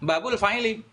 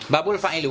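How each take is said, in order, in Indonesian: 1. Kata terakhir berakhir dengan vokal 'i'. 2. Kata terakhir berakhir dengan vokal 'u'. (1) "Berarti harus kita rubah fa'ili" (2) "Enggak boleh"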